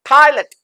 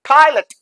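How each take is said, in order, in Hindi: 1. दूसरा अक्षर हल्का है, 'lut' जैसा। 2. दूसरा अक्षर हल्का है, 'lut' जैसा।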